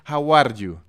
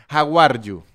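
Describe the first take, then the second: Both takes have the same delivery.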